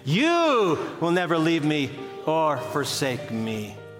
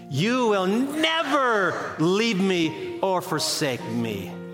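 First: The stress is on "you". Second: The stress is on "never".

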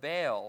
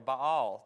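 First: It is said with an American pronunciation. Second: It is said with a British pronunciation. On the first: "depending on whether you come from America" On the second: "or Britain"

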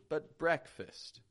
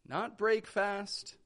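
First: It is said as 'breck-fist', with reduced vowels. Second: It is said as 'break fast', with full vowels. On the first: The speaker calls it right. "that E and A is just becoming an eh sound" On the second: The speaker calls it wrong.

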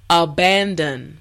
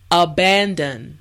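Both takes have the same delivery.

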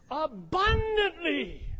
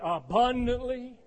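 First: The word is said loudly, with strong passion. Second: The word is said plainly, without much energy. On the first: The speaker calls it right. "say it with some passion" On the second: The speaker calls it wrong. "Everybody say that word with me"

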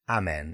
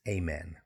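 First: The first vowel is not the letter-A sound. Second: The first vowel sounds like the letter A. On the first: The speaker calls it wrong. "It's not amen" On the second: The speaker calls it right. "It's amen"

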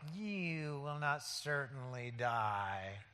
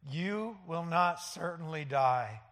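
First: It is said in a sly devil voice. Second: It is read in a plain voice.

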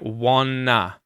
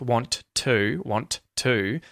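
First: The T sounds disappear into the N. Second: Both T sounds are clearly pronounced. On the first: "both of those T's kind of merge together and disappear into the N" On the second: "where you're hearing both those T's being pronounced"

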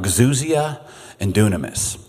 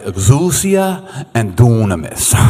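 First: It is said in his plain accent. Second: It is said in an Italian accent.

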